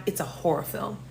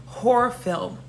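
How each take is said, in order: First: Low, whispery aside; hushed dread. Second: HORROR pushed out, fully voiced; emphatic repeat. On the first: Storyteller confiding how the date turned scary, hushed. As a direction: drop to a near whisper. First, hushed take of the line. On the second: Storyteller driving home how scary it got, stressing Horror. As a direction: punch the word Horror. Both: Real, not acted.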